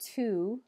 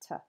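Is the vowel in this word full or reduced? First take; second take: full; reduced. First: The word has a full vowel. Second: The word has a weak, reduced vowel. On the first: "Instead of to" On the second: "you'll often just hear ta"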